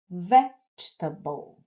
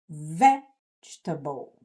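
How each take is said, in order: First: English sounds, syllables linked smoothly with a strong stress. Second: The same.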